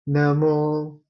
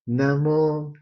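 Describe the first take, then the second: First: The syllable mo is on a high pitch. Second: The same.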